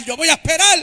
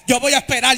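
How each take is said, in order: First: Preacher shouting over the band; shouted vow. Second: A sung vow of patience; sung line. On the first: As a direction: belt it out a bit higher. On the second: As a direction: church singing, held melody. Breaks into song over music. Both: Acted.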